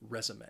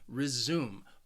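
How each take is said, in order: First: The stress is on the first syllable. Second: The stress is on the second syllable. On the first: It means a written account of work experience. "if you are talking about the noun, you want to say resume" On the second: It means to start again. "the verb resume, which has two syllables and the stress is on the second syllable"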